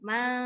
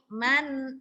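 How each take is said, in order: First: The n sound is blurred and unclear. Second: The n sound is clear and short. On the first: The speaker calls it wrong. "jangan disamarkan" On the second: The speaker calls it right. "dia jelas dan cepat"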